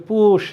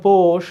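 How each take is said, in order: First: পুষ with u, push, in place of পোষ; Tangail-style পুষ, vowel closed to oo; regional u for o. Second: পোষ with a long o, posh; round, open o in পোষ; standard o vowel. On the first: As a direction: turn the o into u: পুষ. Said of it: "Tangail এলাকার লোক". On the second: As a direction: say পোষ as written, with o not u. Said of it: "লিখেছো পোষ". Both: Shown as a demonstration.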